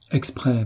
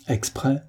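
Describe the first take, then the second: First: EXPRÈS falling at the end; confirming statement. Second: EXPRÈS higher and softer, rising at the end; questioning. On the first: Servant admits it to his master, "Exprès" falling as a statement. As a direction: answer "Exprès" with a settled downward tune. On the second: Master probes the silent servant, "Exprès" lifted as a question. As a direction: ask "Exprès" with a rising tune. Master asks whether drowning was deliberate. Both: A narrator's reading.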